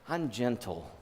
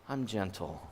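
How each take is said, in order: Both takes have the same delivery.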